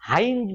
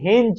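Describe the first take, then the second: First: The vowel sounds like 'eye'. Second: The vowel sounds like 'eh'. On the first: "অনেকে হাইঞ্জ বলে" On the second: "অনেকে হেঞ্জ বলে"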